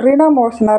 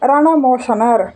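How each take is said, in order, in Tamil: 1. முதல் அசையில் i உயிர் இருக்கிறது. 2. முதல் அசையில் a உயிர் இருக்கிறது. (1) "ரிணமோசனர் அப்படின்ட்டு சொல்லுவாங்க" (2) "சிலர் இவரை ரணமோசனர் அப்படின்னு சொல்லுவாங்க"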